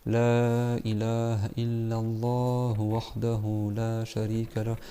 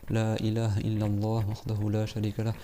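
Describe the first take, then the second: First: The phrase is recited slowly. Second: The phrase is recited quickly. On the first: Ten recitations take too long. "tu fais lentement" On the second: Ten recitations do not take too long. "Comme ça rapidement"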